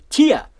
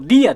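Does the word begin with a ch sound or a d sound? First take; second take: ch sound; d sound. First: The word begins with a ch sound. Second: The word begins with a d sound. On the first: The speaker calls it wrong. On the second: The speaker calls it right.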